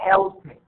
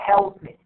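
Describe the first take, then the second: Both takes have the same delivery.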